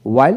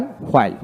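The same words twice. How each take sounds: First: ওয়াইল begun with a plain w, no h. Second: হোয়াইল begun with h before the w; sounded H. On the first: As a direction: say ওয়াইল as "wail". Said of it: "আমেরিকানে অ উচ্চারিত". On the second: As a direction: say হোয়াইল as "hwail". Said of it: "ব্রিটিশে হ উচ্চারিত হয়". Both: Shown as a demonstration.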